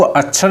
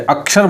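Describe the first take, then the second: First: अक्षर said as "achchhar"; wrong pronunciation. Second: अक्षर said as "ak-shar"; correct pronunciation. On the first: Teacher shows what not to say, achchhar mispronunciation. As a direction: say a chh in अक्षर instead of ksh. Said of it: "इसको अक्षर नहीं बोलते". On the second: Teacher corrects the word for students, clear ksh. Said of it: "अक्षर बोलते हैं". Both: Shown as a demonstration.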